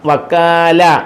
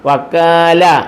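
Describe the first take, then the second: Both takes have the same delivery.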